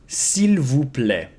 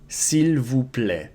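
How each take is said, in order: No difference in how they are said.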